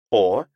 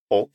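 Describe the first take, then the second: First: The word ends in a vowel, no k. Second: The word ends with a clear k sound.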